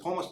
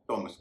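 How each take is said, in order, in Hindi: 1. यह शब्द aspirated th ध्वनि से शुरू होता है। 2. यह शब्द सादी t ध्वनि से शुरू होता है। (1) "इसे थॉमस नहीं कहेंगे" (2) "टॉमस कहेंगे"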